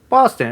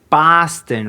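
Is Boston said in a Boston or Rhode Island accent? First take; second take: Rhode Island; Boston. First: It is said in a softer Rhode Island accent. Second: It is said in a harsher Boston accent. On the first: "we'll just say Boston" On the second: "they'll say Boston"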